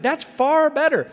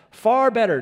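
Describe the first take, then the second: First: "That's far better" with "far" high and loud; stress on far. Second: Far better, far rising and loud; "far" lifted high and loud, then fall; stress on far. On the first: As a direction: land "far" as the peak of the sermon. Preacher repeats the line emphatically. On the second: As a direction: lean hard into "far". Preacher climaxes reading Paul. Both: Acted.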